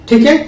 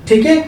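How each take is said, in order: Both takes have the same delivery.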